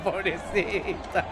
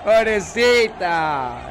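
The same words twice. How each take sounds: First: Pobrecita said through a laugh, slow and soft; laughing pity. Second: Pobrecita stretched very slowly and louder; drawn-out pity. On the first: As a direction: chuckle pobrecita tenderly, slowly. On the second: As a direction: drag out Pobrecita in loud mock sympathy. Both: Real, not acted.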